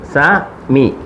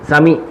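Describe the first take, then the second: First: The two syllables are said separately, with a break. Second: The two syllables are run together quickly. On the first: Each letter is read on its own. "സ മി ഒറ്റയായിട്ട് വായിക്കുമ്പോൾ ഇങ്ങനെ വായിക്കുന്നു" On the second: The letters are read together as one word. "ഉച്ചാരണം സ്പീഡിലായിരിക്കണം"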